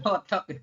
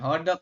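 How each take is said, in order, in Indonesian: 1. Konsonan di tengah terdengar seperti T. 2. Konsonan di tengah terdengar seperti D lembut. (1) "dibacanya T ya" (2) "bukan hodok ya"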